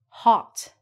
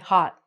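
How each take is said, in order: First: The final T is clearly pronounced. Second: The final T is cut off and not released. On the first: "we look at this and we say hot" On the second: "we're going to take out the T"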